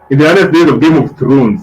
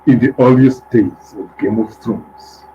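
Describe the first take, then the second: First: It is read in his normal voice. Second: It is read in a dramatic trailer-narrator voice.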